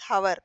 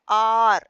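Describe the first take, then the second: First: The word begins with an audible h sound. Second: The word begins with a vowel, no h sound. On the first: The speaker calls it wrong. "We don't pronounce it as hour. That is wrong" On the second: The speaker calls it right. "but we pronounce it as R"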